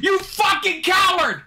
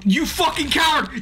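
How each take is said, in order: First: Full shout. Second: Angry yell. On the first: Streamer screaming at his timid character, full furious shout. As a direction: let it rip even harder at the screen. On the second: Streamer yelling at his timid game character, angry yell. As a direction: yell the insult at the screen. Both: Real, not acted.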